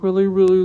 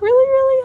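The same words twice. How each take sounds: First: The voice is pitched very low. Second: The voice is pitched very high. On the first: "if I talk really, really low" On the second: "when you talk really, really high"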